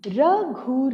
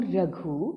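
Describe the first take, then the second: First: रघु higher, split into र and घु; syllable by syllable. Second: Said in the usual way. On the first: Shown as a demonstration. Teacher reading रघु for children, syllable by syllable. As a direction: sound out रघु in two pieces. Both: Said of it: "अब इसे पढ़ते हैं".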